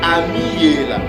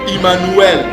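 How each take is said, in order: First: The name is said with different, older-style sounds. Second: The name is said with the familiar sounds. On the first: The speaker calls it right. "La bonne prononciation c'est Amiela" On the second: The speaker calls it wrong. "Ça ne se prononce pas Emmanuel. Non, ça c'est une fausse prononciation"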